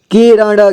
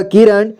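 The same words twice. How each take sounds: First: किरण as कि-र-ण, final vowel sounded; syllable by syllable. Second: Said in the usual way. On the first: Shown as a demonstration. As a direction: sound out किरण in three parts. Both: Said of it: "एक ही बार में पढ़ेंगे".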